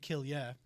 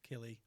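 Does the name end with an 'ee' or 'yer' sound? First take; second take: yer; ee. First: The name ends with a 'yer' sound. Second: The name ends with an 'ee' sound. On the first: The speaker calls it right. "No, it should be Killier" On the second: The speaker calls it wrong. "but some people would read it as Kill Killy"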